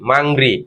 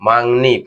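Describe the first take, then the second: First: The second syllable starts with an r sound. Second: The second syllable starts with an n sound. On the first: The speaker calls it wrong. "প্রথম কি ছিল মাংরি" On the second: The speaker calls it right. "ন উচ্চারণ হওয়ার কারণে এখানে কি হবে মাংনি"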